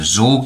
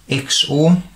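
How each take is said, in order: First: It is said as one word, like zor. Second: It is spelled out as three separate letters. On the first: "also maybe pronounced as the Z O R gate" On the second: "known as the X O R"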